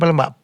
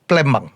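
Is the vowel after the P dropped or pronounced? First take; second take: pronounced; dropped. First: The vowel after the P is fully pronounced. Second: The vowel after the P is dropped. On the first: It is how outsiders say the city name. The speaker calls it wrong. "bukan Palembang" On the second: It is how local people say the city name. The speaker calls it right. "Hanya tidak dibaca"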